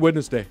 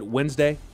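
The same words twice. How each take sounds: First: The word is said with three syllables, 'Wed-nes-day'. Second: The word is said with two syllables, 'Wenz-day'. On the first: The speaker calls it right. "It's actually Wednesday" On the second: The speaker calls it wrong. "Wednesday is also not correct"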